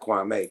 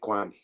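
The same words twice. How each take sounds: First: The name is pronounced like the rapper's name. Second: The name is pronounced unlike the rapper's name. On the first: The speaker calls it wrong. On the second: The speaker calls it right. "let me say it right"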